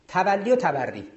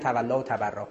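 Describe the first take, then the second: First: Both words end in a long 'ee' vowel. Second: Both words end in a long 'aa' vowel. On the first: The speaker calls it right. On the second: The speaker calls it wrong.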